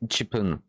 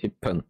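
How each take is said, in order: First: The 'chi' syllable is fully pronounced before 'pun'. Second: The 'chi' syllable is dropped and the p doubled. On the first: The speaker calls it wrong. "c'est pas Chipun" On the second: The speaker calls it right. "vu qu'ils sont un peu mangés"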